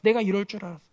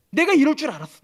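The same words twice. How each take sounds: First: Said in the usual way. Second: 내가 hit loud and high, then an indignant falling line; bitter I-knew-it cry; angry complaint. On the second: Acted. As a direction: snap 내가 이럴 줄 알았어 in resentment. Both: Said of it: "매우 싫어하면서 성을 냅니다".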